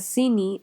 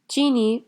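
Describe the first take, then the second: First: It begins with an s sound. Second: It begins with a ch sound.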